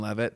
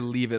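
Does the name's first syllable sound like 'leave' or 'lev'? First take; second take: lev; leave. First: The first syllable sounds like 'lev'. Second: The first syllable sounds like 'leave'.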